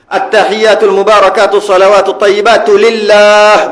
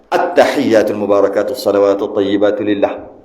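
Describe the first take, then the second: First: The vowel in the last word is held long. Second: The vowel in the last word is cut short. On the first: The speaker calls it right. "Biar panjang sikit eh" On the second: The speaker calls it wrong.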